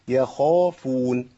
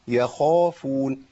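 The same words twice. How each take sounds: Both takes have the same delivery.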